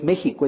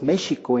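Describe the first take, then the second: First: The x is a harsh throaty h sound. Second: The x is a soft sh sound. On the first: This is the modern Spanish pronunciation. "no es México" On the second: This is the original Nahuatl pronunciation. "es México en náhuatl"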